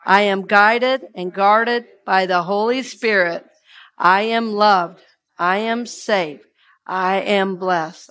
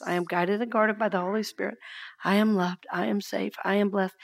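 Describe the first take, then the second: First: Slow, deliberate recitation led for the room; steady call for the congregation to echo; slow affirmation. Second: Softer, near-breath repeat of the affirmation; quiet affirmation. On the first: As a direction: lay out each phrase evenly and slowly. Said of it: "Say that with me one more time". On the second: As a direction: let it sink to a hush. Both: Shown as a demonstration.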